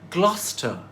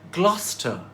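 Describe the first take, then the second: First: It rhymes with Foster. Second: It rhymes with Foster.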